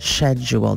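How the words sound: It begins with a 'sh' sound.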